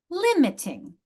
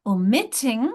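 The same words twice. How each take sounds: First: "limiting" with a high LIM, then falling; "limiting" as LIM-it-ing, high start; first-syllable stress. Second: "Omitting" with a strong o-MIT-ting; louder middle syllable in "Omitting"; second-syllable stress. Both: Shown as a demonstration. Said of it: "notice the different stress patterns".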